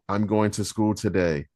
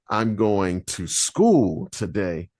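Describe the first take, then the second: First: No word is given special stress. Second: The word school is stressed.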